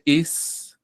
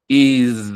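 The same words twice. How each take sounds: First: "is" with a simple hissed s at the end; plain S ending. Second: "is" said loudly with a buzzing z ending; Z sonora final. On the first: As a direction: end "is" on an unvoiced s, no buzz. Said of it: "en vez de un simple is". ("is" con una s simple, sin vibración) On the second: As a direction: lean on a voiced z at the end of "is". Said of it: "esto se pronuncia". ("is" con z sonora y marcada al final) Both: Shown as a demonstration.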